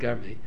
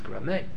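First: The word begins with 'gar' and ends in 'ee'. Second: The word begins with 'gra' and ends in 'eh'. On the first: The speaker calls it wrong. "they pronounce it Garmi" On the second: The speaker calls it right. "the correct pronunciation is Grame"

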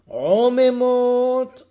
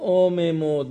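First: The word begins with a pharyngeal ayin sound. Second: The word begins with a glottal alef sound.

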